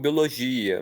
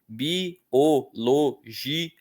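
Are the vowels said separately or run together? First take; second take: run together; separately. First: The vowels are run together into fewer syllables. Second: The vowels are said slowly as separate syllables. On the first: The speaker calls it wrong. "Existem pessoas até que falam biologia" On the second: The speaker calls it right. "o correto é falar pausadamente"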